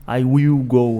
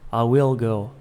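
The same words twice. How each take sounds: First: The L in will sounds like a vowel. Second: The L in will has the tongue touching. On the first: The speaker calls it wrong. "eu não vou falar will" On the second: The speaker calls it right. "Eu falo will. A língua fica aqui atrás do dente"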